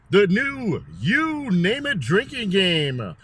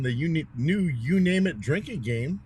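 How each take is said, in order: First: It is said in a put-on announcer voice. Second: It is said in an ordinary conversational voice.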